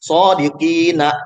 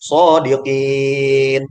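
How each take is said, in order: First: The word ends with a short vowel after n. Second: The word ends on a bare n sound. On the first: The reader continues without stopping. "Awalnya dia hidup" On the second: The reader stops at this word. "Tapi naknya dimatikan karena diwakaf"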